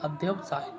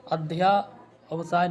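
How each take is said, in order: First: "अध्यवसाय" with short ध्य; correct form. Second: "अध्यावसाय" with long ध्या; wrong form. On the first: Teacher correcting students, short second vowel. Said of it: "ये होता है". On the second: Teacher quoting the mistake, long slow vowel. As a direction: slowly stretch ध्या in "अध्यावसाय". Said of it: "नहीं होता". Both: Shown as a demonstration.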